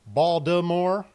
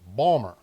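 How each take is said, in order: First: The name is said with all its syllables. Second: The name is squeezed into two short syllables. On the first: "You will either hear Baltimore" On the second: "you will either hear it as one word"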